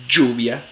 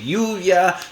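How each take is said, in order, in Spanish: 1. La consonante es una africada sonora como 'j'. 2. La consonante es una aproximante suave, parecida a una vocal. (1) "la africada postalveolar sonora" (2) "suele ser una aproximante"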